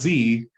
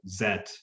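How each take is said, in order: First: The letter is said as 'zee'. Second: The letter is said as 'zet'. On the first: The speaker calls it wrong. "because it's not Z" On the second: The speaker calls it right. "Ultraman uh, Zet"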